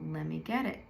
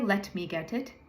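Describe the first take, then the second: First: It is said fast with the T sounds dropped. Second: It is said carefully with clear T sounds. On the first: "if you say it at that pace, we will hear, let me get it, because we don't say those T's" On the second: "You can say, let me get it as well"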